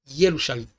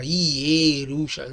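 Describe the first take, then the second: First: The first vowel is very short and quick. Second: The first vowel is a full, clear e. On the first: The speaker calls it right. "pronunciado muito, muito rápido" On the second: The speaker calls it wrong. "Você não fala Yerushalayim, não"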